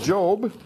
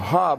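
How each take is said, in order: First: The name begins with a J sound. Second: The name begins with an H sound.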